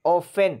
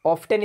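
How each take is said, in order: First: Often said as offen, silent t; often without the t. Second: Often said as off-ten, t clearly sounded; often with a spoken t. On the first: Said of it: "टी नहीं पढ़ेंगे". (often बिना टी की आवाज़ के, ऑफ़न) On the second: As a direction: demonstrate the wrong often, pronouncing the t. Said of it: "often इसको नहीं बोलेंगे". (often टी के साथ, ऑफ़्टन, गलत तरीका) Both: Shown as a demonstration.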